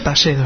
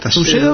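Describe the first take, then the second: First: The first vowel sounds like 'a'. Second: The first vowel sounds like 'oo', as spelled. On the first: The speaker calls it right. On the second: The speaker calls it wrong.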